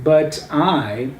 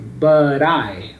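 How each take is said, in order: First: The T is a clear, hard stop. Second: The T is a quick R-like tap. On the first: "instead of saying but I" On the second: "you make the T sound there as a ra ra sound"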